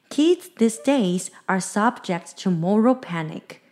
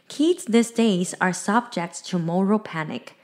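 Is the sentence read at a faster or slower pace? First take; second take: slower; faster. First: The sentence is read at a slower pace. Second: The sentence is read at a quicker pace. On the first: "再慢一点的念一遍哦。" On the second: "the sentence one more time"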